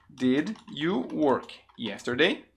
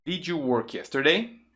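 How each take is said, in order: First: "Did, you, work, yesterday" word by word; slow careful model. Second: "Did you" joined as "didju", question rising; linked D-J sound. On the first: Teacher builds the question for learners, slowly spaced. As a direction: keep "Did" and "you" slow and separate, rising at the end. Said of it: "Como fica a pronúncia?". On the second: Teacher drills the question, "Did you" linked as "didju". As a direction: say "Did you work yesterday" with "didju" up front. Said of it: "Muito comum essa conexão". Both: Shown as a demonstration.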